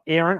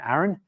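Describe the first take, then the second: First: The first vowel sounds like an 'e' vowel. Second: The first vowel sounds like a hard 'a' vowel. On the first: The speaker calls it wrong. "it's A's, not E's" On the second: The speaker calls it right. "hard A's, not soft A's"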